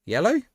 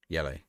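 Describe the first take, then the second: First: "Yellow?" asked with a much higher, sharp rise on yellow; "Yellow?" sounding startled at the card, pitch jumping up; surprised question. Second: Said in the usual way. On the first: Real, not acted. Streamer surprised at the referee's card, rising "Yellow?". Reacting to a foul in the game.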